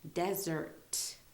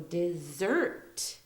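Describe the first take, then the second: First: The stress is on the first syllable. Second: The stress is on the second syllable. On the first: It names a very dry area of land. "There's emphasis on the de part of the of the word" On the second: It means to abandon or leave for good. "there's more emphasis on the, the next part of the word, so the zert part"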